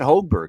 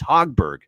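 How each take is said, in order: First: The first syllable does not sound like 'hog'. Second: The first syllable sounds like the word 'hog'. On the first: The speaker calls it wrong. "It's not Hogberg" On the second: The speaker calls it right. "so like the hog, you know, pig suey"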